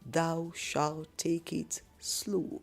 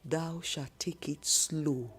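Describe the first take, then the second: First: The phrase is said very slowly. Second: The phrase is said at a normal speed.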